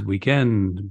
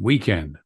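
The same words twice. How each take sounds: First: The stress is on the second syllable. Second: The stress is on the first syllable. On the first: This is the British pronunciation. "British seems to favor the iambic, da-dum" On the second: This is the American pronunciation. "American seems to favor the trochaic, the dum-dum"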